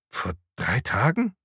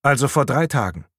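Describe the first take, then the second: First: "Vor drei Tagen" softly, rising at the end; questioning echo. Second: Said in the usual way. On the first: A narrator's reading. Patrick echoes the officer's "Vor drei Tagen", questioning. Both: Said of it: "wiederholte Patrick".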